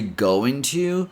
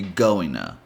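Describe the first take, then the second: First: The word to has a full, clear o vowel. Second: The t is dropped, blending into an n sound. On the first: "you can say going to" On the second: "eliminate the D and pretty much add an N sound"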